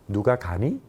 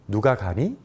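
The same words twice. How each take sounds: The two takes are said the same way.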